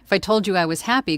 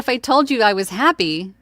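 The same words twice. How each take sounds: First: It is said flatly, without audible happiness. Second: It is said smiling, with more energy.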